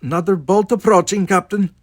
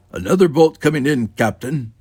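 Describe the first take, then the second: First: High, loud, agitated warning; great agitation. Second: Loud, higher-pitched droned report; droning. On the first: Chekhov warning captain of incoming fire, greatly agitated. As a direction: raise the alarm in a fluster. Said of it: "Chekhov said with great agitation". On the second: Sulu playing Spock warns captain, droning. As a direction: drone the warning out like an official. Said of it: "Sulu droned". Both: A narrator's reading.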